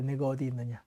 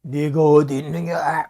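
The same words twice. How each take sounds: First: Soft, tender, grieving call; a pained father calling gently; sorrowful God. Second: Louder, slow, stern demanding call; angry reading. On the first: Acted. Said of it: "마음이 안타까운 것입니다". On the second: Shown as a demonstration. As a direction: read it like a furious accuser. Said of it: "우리 감정대로 읽잖아요".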